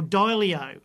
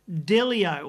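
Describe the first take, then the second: First: Dilio with a long gliding first vowel, "DIE-lee-oh"; alternative pronunciation. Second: Delio with a short first vowel, "DILL-ee-oh"; alternative pronunciation. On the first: Presenter offering another version of the name, [name] with long first vowel. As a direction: say Dilio starting with a diphthong, like "die". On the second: Presenter unsure of a band member's name, [name] with short first vowel. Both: Shown as a demonstration. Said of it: "something like that anyway".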